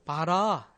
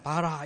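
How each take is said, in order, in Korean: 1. 강세는 마지막 음절에 있어요. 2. 강세는 첫 번째 음절에 있어요.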